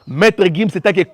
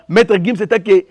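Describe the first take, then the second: No difference in how they are said.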